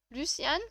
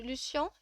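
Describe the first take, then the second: First: Luciane ending in a sounded n; tentative Luciane with rising end; trying a pronunciation. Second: Lucian with a French nasal ending; tentative Lucian, last vowel nasal; trying a pronunciation. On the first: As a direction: say Luciane as "lu-syann", questioning. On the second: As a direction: say Lucian as "lu-syan", n silent. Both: Shown as a demonstration. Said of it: "Je sais pas comment ça se prononce".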